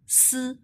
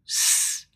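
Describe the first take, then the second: First: The s is said like Chinese pinyin s. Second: The s is said like the English s.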